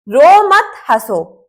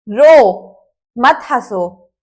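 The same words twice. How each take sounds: First: There is a pause after मत. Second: There is a pause after रो.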